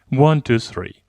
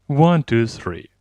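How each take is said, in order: No difference in how they are said.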